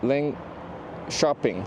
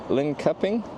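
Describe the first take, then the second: First: The middle consonant is a soft sh-like sound. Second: The middle consonant is a hard k sound. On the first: The speaker calls it right. "Soft K" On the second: The speaker calls it wrong. "You don't say it like Lincoping"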